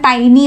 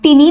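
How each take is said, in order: First: The first vowel sounds like 'eye'. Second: The first vowel sounds like 'ee'. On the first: The speaker calls it right. "याचा उच्चार टायनी असा करायचा" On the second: The speaker calls it wrong. "टिनी म्हणायचं नाही"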